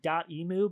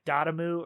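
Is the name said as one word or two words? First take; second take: two words; one word. First: The name is said as two separate words. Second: The name is run together as one word. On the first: "I'm saying dot emu" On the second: "because it's one word, it's, it could be like dotamu"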